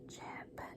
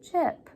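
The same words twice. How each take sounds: First: It is said very quietly, almost whispered. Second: It is said a little louder.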